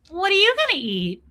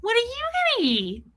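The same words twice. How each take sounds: First: High, innocent question; mock naive self, pitched up. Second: Squeaky, high and innocent; high clueless voice. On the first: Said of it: "And I am so stupid". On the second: Retold or imitated. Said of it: "I literally just went". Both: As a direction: ask it like a clueless kid.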